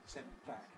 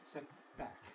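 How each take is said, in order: No difference in how they are said.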